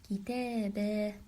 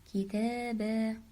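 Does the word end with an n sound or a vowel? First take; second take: vowel; vowel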